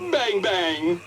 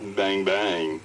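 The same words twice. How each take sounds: First: It is said in a happy tone. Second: It is said in a flirty tone.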